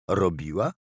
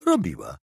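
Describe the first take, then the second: First: ROBIŁA rising as a question. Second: ROBIŁA falling as a statement; confirming. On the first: Dialogue echoed back as a question, questioning. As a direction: say "robiła" as a question, voice lifting at the end. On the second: Answering the echoed question, confirming. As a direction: say "Robiła" firmly, dropping at the end. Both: Acted.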